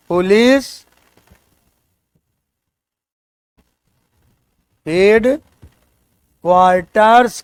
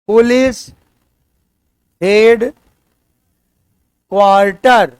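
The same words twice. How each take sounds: First: "क्वार्टर्स" with a clear final s; correct plural form. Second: "police head क्वार्टर" said without the s, as the mistake; wrong singular form. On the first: Teacher gives students the correct "क्वार्टर्स" with the s. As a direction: end "police head क्वार्टर्स" on a firm s. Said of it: "इसलिए आपको कहना पड़ेगा". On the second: Teacher shows students the wrong form "क्वार्टर". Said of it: "गलत।". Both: Shown as a demonstration.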